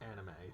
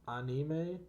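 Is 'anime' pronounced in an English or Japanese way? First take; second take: English; Japanese. First: The word is said with English-style pronunciation. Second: The word is said with Japanese-style pronunciation. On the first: This is how most non-Japanese countries say it. "in like most non-Japanese countries, um, it's pronounced anime" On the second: This is the original pronunciation.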